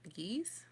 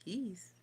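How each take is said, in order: First: Geese with a clear g and a rising tune. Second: Geese said with a falling tune, the g dropped. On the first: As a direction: Geese said like a question. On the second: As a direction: Geese trailing down like a statement. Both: Shown as a demonstration. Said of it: "In geese".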